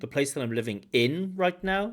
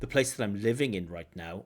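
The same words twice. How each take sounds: First: The stress falls on the word in. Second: The stress falls on the word living. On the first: The speaker calls it wrong. "but not in" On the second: The speaker calls it right. "the stress really should be on living"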